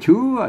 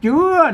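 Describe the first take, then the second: First: The word begins with a 'ch' sound. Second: The word begins with a 'j' sound. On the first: The speaker calls it wrong. "คนทั่วไปมาอ่านมาอ่านว่าเชื่อ ... มันจะผิดสำเนียง" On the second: The speaker calls it right. "เปิ้นอ่านว่าเป็นตัวจะ ... อ่านว่าเจื้อนะครับ"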